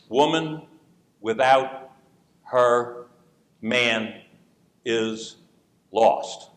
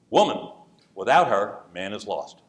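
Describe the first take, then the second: First: It is said flatly, without breaking pauses. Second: It pauses after 'woman' and after 'her'. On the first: A woman who has no man is lost. "I'll try to say it without inflection" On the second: A man is lost without a woman. "Unless you say it like this"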